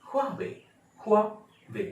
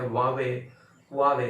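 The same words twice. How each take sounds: First: Huawei high, with sounded H, "HWAA-way"; real Huawei pronunciation. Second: Huawei as "WAA-way", no H; silent-H Huawei. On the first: Teacher models the Chinese company's name, correct pronunciation. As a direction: punch the breath of H in Huawei, two beats. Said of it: "इसके pronunciation". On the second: Teacher quotes the silent-H camp, wrong pronunciation. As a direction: drop the H from Huawei. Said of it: "एच silent है". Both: Shown as a demonstration.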